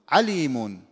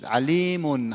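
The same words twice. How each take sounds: First: The stress falls away from the long vowel. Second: The stress falls on the long vowel. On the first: The speaker calls it wrong. "اینا همه نبرای غلطه" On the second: The speaker calls it right. "روی کشیده نبر واقع میشه"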